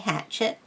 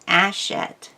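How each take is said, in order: First: It starts with an H and a 'ch' sound. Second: It starts with a vowel, no H sound. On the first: The speaker calls it wrong. "people used to say hatchet for how to pronounce that word. Uh, that is wrong" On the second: The speaker calls it right. "The French don't pronounce H's if they're on the beginning of a word"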